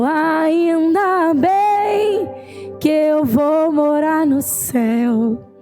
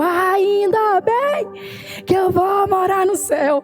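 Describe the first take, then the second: First: It is said in a sincere, reverent tone. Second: It is said in a mocking, ironic tone. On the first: The speaker truly rejoices at going to heaven. "não com esse tom santo" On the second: The speaker is jabbing at people who provoked them. "mas com tom irônico"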